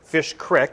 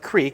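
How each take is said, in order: First: The vowel is a short i sound. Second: The vowel is a long ee sound. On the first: The speaker calls it right. "it's called Fish Creek" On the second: The speaker calls it wrong. "they don't pronounce it creek"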